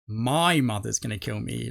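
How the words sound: The word 'my' is strongly emphasized. "she's like emphasized the word "my.""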